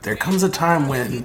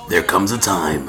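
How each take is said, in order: First: It is said in a plain, normal voice. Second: It is said in a deep movie-trailer voice.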